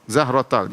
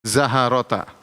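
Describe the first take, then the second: First: No vowel is heard between h and r. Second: A short a vowel is heard between h and r. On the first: "dibaca dengan ini kan sukun" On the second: "Zaharota dengan fathah"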